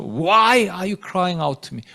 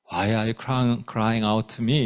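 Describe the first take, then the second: First: Slow, reproachful question with drawn-out WHY; rebuking question. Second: Low, quiet inquiry with no reproach; mild, soft question. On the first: God rebuking Moses for crying out, slow stern reproach. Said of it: "책망하시는 것 같아요". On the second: God asking Moses in the wrong nuance, soft low question. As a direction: ask softly and low, as if merely wondering. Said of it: "이러지는 않았을 거예요". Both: Shown as a demonstration.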